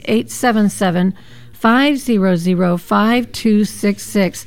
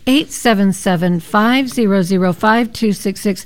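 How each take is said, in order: First: The number is said very slowly. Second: The number is said at normal speed.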